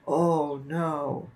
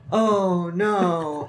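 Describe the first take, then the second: First: It is said at a low pitch. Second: It is said at a medium pitch.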